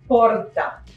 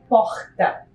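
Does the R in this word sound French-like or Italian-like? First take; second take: Italian-like; French-like. First: The R sounds light and Italian-like. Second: The R sounds heavy and French-like. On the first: This is how people in São Paulo say it. "se você estiver uh, em São Paulo, você vai falar porta ... Quase italiano" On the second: This is how people in Rio de Janeiro say it. "Se você vai para o Rio de Janeiro, você vai ouvir porta. ... Bem carregado, porque teve uma influência francesa"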